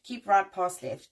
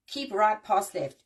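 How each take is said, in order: First: "Keep right, pass left." said slowly, each word hit; slow, emphatic rule. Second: Said in the usual way. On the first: Shown as a demonstration. Driver teaching viewers the lane rule slowly and emphatically.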